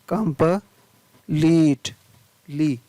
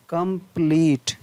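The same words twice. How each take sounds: First: कंप्लीट broken into कंप and लीट, ली held long; slow syllable-by-syllable कंप्लीट with a long ee in ली; long EE, split up. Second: Said in the usual way. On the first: Shown as a demonstration. (कंप्लीट को तोड़कर, ली में लंबी ई) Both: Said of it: "बड़ी ली".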